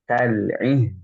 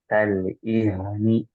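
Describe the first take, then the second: First: The final consonant flows smoothly without bouncing. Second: The final consonant bounces with an extra vowel. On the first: The speaker calls it right. "Dialirkan saja" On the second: The speaker calls it wrong. "haknya tidak boleh memantul"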